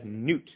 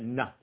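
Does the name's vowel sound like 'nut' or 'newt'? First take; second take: newt; nut. First: The vowel is a long 'oo', as in 'newt'. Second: The vowel is short, as in 'nut'. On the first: This is a rendering found elsewhere that the speaker doesn't follow. The speaker calls it wrong. "I've seen this referenced as Newt" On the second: This follows the speaker's own community's pronunciation. The speaker calls it right. "In our way of pronouncing, we would probably pronounce that nut"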